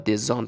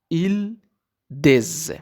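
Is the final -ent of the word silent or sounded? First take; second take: sounded; silent. First: The word ends in a sounded -ant syllable. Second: The word ends in a z sound. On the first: The speaker calls it wrong. "نگین دسانت یا دزانت" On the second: The speaker calls it right. "او انت خوانده نمیشه"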